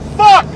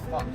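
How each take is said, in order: First: The word is said loudly and angrily. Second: The word is said calmly, without anger.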